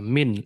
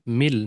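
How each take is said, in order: First: The n sound is clearly pronounced. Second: The n sound is merged into an l. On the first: The speaker calls it wrong. "मिन नहीं" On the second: The speaker calls it right. "इदगाम करना है, मर्ज"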